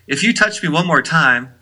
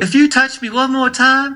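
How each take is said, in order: First: It is said in the speaker's ordinary accent. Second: It is said in an imitated Southern accent.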